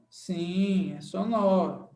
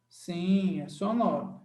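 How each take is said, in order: Both takes have the same delivery.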